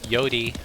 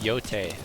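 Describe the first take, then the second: First: The name ends with an 'ee' vowel. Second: The name ends without an 'ee' vowel. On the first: Some other people say it this way. The speaker calls it wrong. "Some people were saying Yodi" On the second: This is the proper way to say it. The speaker calls it right. "I think that's the proper pronunciation"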